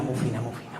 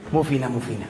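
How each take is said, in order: First: "muy fina" said softly through a laugh, lower and quieter; mocking the posh daughter-in-law while laughing; laughing through the quote. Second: Said in the usual way. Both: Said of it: "Tengo una nuera que es que es muy fina".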